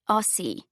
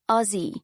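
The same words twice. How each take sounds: First: The middle consonant is a hissing S sound. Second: The middle consonant is a buzzing Z sound. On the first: The speaker calls it wrong. "not Aussie" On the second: The speaker calls it right. "You've got to pronounce it like the S's are Z's"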